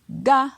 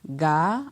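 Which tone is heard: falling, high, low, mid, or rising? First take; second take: high; rising. First: The syllable is said on a high tone. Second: The syllable is said on a rising tone. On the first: "avec un ton haut" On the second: "avec un ton montant"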